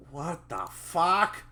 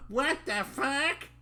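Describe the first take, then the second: First: Slow, slightly raised character voice; first try at character voice. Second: Squeaky-high, drawn-out voice; character's put-on voice. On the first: Acted. Reader trying the character's curse, lightly acted drawn-out voice. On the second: Reader finding the character's voice, high comic squeal. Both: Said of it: "That's his voice".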